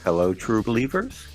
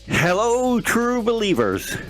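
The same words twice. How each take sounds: First: It is said flatly and hesitantly. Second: It is said with strong, lively emphasis.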